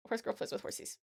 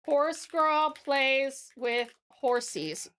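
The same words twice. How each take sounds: First: Quick, soft read-back; reading back quietly. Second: Very slow, word by word; dictating a title. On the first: Reads finished title back to self. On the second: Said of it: "I'm gonna say". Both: Real, not acted.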